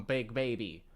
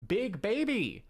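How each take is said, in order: First: Said in the usual way. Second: Put-on big baby yelled higher and louder; mock shout. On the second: Shown as a demonstration. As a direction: belt out Big baby as a joke. Repeats meme phrase.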